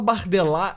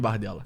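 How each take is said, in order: First: The name is said with an affected French pronunciation. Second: The name is said plainly, without French affectation. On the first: The speaker calls it wrong. "é meio afetado" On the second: The speaker calls it right. "eu vou chamar de bardela"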